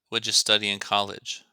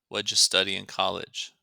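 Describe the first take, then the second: Both takes have the same delivery.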